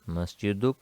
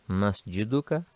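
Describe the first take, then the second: First: The word ends with a consonant. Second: The word ends with a short vowel. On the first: The speaker stops after the word. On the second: The speaker goes on without stopping.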